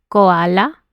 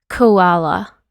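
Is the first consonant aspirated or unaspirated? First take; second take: unaspirated; aspirated. First: The first consonant is released without extra air. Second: The first consonant is released with a puff of air. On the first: The speaker calls it wrong. "no es koala" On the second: The speaker calls it right. "es koala; necesitan un poquito más de aire"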